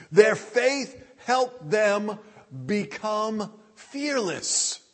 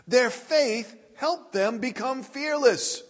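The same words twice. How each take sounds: First: Very slow, with pauses between phrases; slow, deliberate. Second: Said in the usual way. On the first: Real, not acted. Preacher drives home the main point to the congregation, slow and deliberate. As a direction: spell out the key point slowly, word group by word group. Key point stated slowly, then repeated.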